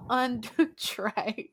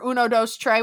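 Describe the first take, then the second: First: UNDO TREY said slowly, French 'un, deux' into Spanish 'tres'; accidental French version. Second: UNO DOS TREY with Spanish number words; Spanish version. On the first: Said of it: "I just did the French version". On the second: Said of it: "or Uno Dos Trey, whatever it is". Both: Real, not acted.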